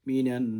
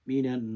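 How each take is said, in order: The two takes are said the same way.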